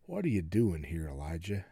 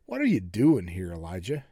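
First: Very low, soft voice of God; hushed, low-pitched divine question; still small voice. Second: Low, measured voice of God; God's low, probing question; God speaking. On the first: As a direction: ask it gently, nearly under your breath. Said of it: "a voice came to him and said". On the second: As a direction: question him in a lowered voice. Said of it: "this is God speaking to him". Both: Acted.

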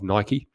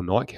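First: Nike said in two syllables, NY-kee. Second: Nike said in one syllable, like bike; Nike as NYKE. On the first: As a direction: end Nike on an "ee" sound. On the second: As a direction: drop the final "ee" from Nike. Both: Shown as a demonstration. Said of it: "however you like to pronounce it".

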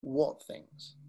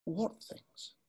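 First: Low, soft late-night radio voice; midnight DJ voice. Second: Real quiet. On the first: Shown as a demonstration. Showing the audience the question, low quiet DJ voice. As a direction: lower the pitch and soften it like a late-night DJ. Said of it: "your midnight D J voice". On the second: Retold or imitated. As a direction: drop the voice right down, calm and slow. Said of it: "Real quiet".

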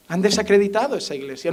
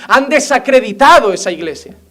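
First: "Han desacreditado esa iglesia" repeated softly, almost to himself; quiet repetition. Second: "Han desacreditado esa iglesia" said firmly, with weight on "desacreditado"; forceful declaration. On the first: Pastor repeating his rebuke to the church, quiet and grave. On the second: Pastor scolding the congregation, forceful stress on "desacreditado". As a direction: drive "desacreditado" home like an accusation. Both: Shown as a demonstration.

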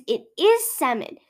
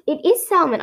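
First: "salmon" with the L left silent. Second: "salmon" with an audible L; L sounded in salmon. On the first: Conceding how Aussies say it, "salmon" as "sammon". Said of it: "Aussies who say salmon". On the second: Summing up the reasons, "salmon" with a clear L. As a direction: insist on "salmon" as "sal-mon". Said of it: "good reasons why it's salmon". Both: Shown as a demonstration.

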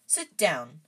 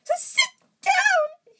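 First: Polite offer in an everyday voice. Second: Drawn-out, very high loud elf wail. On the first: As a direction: politely offer a seat, at normal pitch. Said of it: "said Harry politely". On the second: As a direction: wail slowly in a piercing falsetto. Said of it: "he wailed". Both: A narrator's reading.

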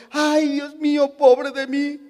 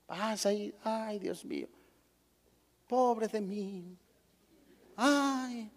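First: Un poco más agudo, lamento fingido; quéjate como víctima, sin fuerza; queja lastimera. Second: Imitando un lamento débil y bajito; quéjate suave, como víctima; queja lastimera. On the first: José quejándose, hipotético. (lamento teatral, ligeramente agudo) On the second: Fiel quejándose, imitado. (lamento fingido en voz baja) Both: Retold or imitated.

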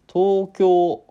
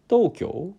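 First: 東京 with every syllable stressed, much higher and louder; all-accented Tokyo. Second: 東京 rising, the stress only on the final お; accent on last o. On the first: Host demoing the fully accented 東京 variant. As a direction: hit all of 東京 hard. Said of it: "全部にアクセントが". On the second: Host trying the final-o accent on 東京. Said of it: "おの部分にだけアクセントつけるって". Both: Shown as a demonstration.

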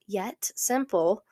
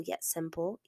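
First: Yet simple, slowed and stretched; slow stress on yet simple. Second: Said in the usual way. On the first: Shown as a demonstration. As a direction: lean on yet simple slowly. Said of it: "powerful yet simple".

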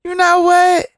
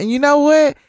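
First: Higher, louder insistent repeat; the fan lady doubling down on her point, higher and louder; gushing fan lady, more emphatic. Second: Imitating the fan lady. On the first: Retold or imitated. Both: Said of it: "And so she say".

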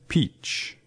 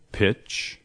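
First: "peach" with a tense ee; long ee. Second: "Pitch" with a brief, lax i; short i. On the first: Teacher contrasting two words for learners, long ee in peach. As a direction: hold a clear ee in peach. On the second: Teacher contrasting two words for learners, short i in Pitch. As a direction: keep the i in Pitch short, not ee. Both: Shown as a demonstration. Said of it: "¿Oyes la diferencia?".

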